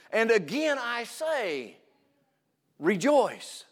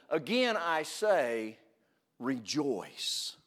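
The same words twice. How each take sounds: First: High, slow, emphatic reading of "And again I say, rejoice", weight on again; emphatic quote. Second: Quiet repeat. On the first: Preacher proclaiming Paul's command to the congregation, slow and high. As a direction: lift it up and lean on every word. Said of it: "he repeats the, the, the instruction". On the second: Preacher repeating the command for those not listening, hushed and slow. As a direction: pull it down and let it sink in. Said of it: "let me say it again". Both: Shown as a demonstration.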